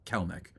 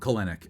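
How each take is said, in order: First: The name is said with two syllables. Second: The name is said with three syllables. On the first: The speaker calls it right. "instead of Kelnick" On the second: The speaker calls it wrong. "My apologies if I said um, um, Kelenic"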